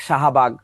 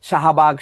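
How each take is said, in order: No difference in how they are said.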